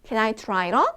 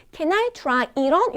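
First: Said in the usual way. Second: High, slow, rising at the end; slow rising question. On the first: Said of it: "이렇게". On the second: Shown as a demonstration. Customer at a clothing shop asking slowly to try it on. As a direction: ask it slowly with a lift on on. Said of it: "이렇게 물어보는 거죠".

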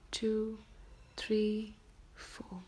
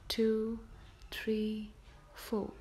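Both takes have the same delivery.

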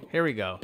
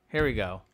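The two takes are said the same way.

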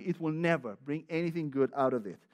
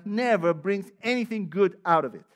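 First: Said in the usual way. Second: Loud, stressed "never" falling at the end; forceful. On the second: Acted. Pastor warning the church, loud and forceful. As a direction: proclaim it firmly to the room.

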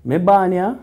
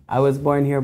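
First: Me born here in broad Jamaican Patois, pitched higher and louder. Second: Said in the usual way. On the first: Shown as a demonstration. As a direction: say it proud, the Patois way.

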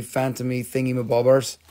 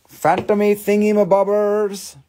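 First: Said in the usual way. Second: Phantomy thingy-mabobbers sung out higher and louder; higher, louder playful Phantomy thingy-mabobbers; playful sing-song. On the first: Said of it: "repeats in sing-song". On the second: Shown as a demonstration. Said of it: "repeat higher, playful".

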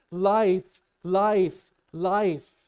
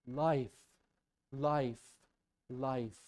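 First: High, very loud shouted cries; screaming. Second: Said in the usual way. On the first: Acted. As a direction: shout each word out like a desperate runner. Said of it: "you know what he's screaming?".

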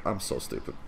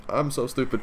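First: Softer, lower self-blame; quiet self-scolding. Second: Higher self-scolding. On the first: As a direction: mutter it to yourself, softer. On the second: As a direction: say it again, higher and fed up. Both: Real, not acted.

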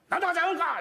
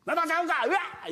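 First: High mock child wail; high child voice yelling at dad; imitating a crying kid. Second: High mock child wail; imitating a crying kid. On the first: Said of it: "言うたら俺に向かってね". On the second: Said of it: "言うやんか". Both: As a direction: whine like a toddler.

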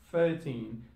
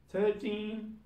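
First: "thirteen" said as "firteen". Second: "Thirteen" opened with a T-like TH, pitched high. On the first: Teacher showing learners Cockney British, "thirteen" with F for TH. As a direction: swap the TH of "thirteen" for an F. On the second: Teacher showing learners the TH before Cockney, "Thirteen" with TH. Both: Shown as a demonstration. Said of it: "T H will turn into fur sound".

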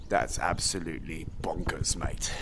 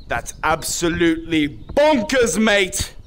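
First: Very low, slow near-whisper; low, soft, drawn-out amazement; hushed disbelief. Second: Slow, emphatic, in full voice; voiced, leisurely mock amazement; drawn-out disbelief. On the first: Pretend. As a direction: murmur it deep under your breath. Two takes of reaction to viewer count. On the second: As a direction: stretch out each word, landing on bonkers. Same reaction repeated out loud.

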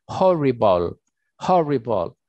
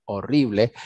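First: Horrible with the h said like a Spanish j, xoribol; Horrible, h as a rasping j sound, English ending bol; English pronunciation. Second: Horrible said the Spanish way, silent h, orible; Spanish pronunciation. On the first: Teacher showing students the English Horrible with a j-like h. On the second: Teacher to students, first the Spanish horrible with a silent h. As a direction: horrible with no h sound at all, Spanish vowels. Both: Shown as a demonstration. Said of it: "la H es una J".

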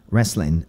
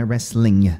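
First: "Wrestling" said as "wrestlin'", ending on n; dropped G. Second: "wrestling" with its final ng sounded; full ING ending. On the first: Teacher shows the changed pronunciation, "Wrestling" with dropped G. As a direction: cut the g off "Wrestling". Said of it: "A pronúncia muda". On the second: Teacher shows what not to say, "wrestling" with full ng. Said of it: "Não é wrestling". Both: Shown as a demonstration.

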